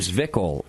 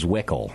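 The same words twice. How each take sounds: First: The W is pronounced like a V. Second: The W is pronounced like an English W. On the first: It is the native German pronunciation. "Am I saying that right if I was kind of a German?" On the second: It is how most customers say it. "But everyone else says Zwickel"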